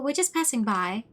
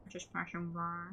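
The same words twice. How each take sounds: First: Said in the usual way. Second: Slow, soft slurred mumble; trailing, slurred mock excuse; mocking echo. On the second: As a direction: mumble the excuse mockingly under your breath. Mocks the flimsy excuse again.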